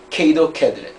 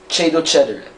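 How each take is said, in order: First: The c is said as a k sound. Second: The c is said as a ch sound. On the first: This is the restored classical Latin pronunciation. "for the C sounds, it's gonna be a K" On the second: This is the Church Latin pronunciation. "It's a ch, like cedo cedere"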